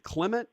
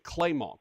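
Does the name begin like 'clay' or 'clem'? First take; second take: clem; clay. First: The first syllable sounds like 'clem'. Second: The first syllable sounds like 'clay'. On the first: The name is said as it is spelled. "It's spelled Clement" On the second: The name is said the way the family says it. "my mom would probably like it if you call me Claymont"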